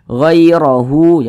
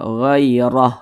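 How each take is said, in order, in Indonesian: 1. Kata ini diakhiri dengan vokal hu yang panjang. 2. Kata ini diakhiri dengan bunyi h yang mati. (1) "hu-nya kita panjangkan" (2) "huruf H ini kita sukunkan atau kita matikan"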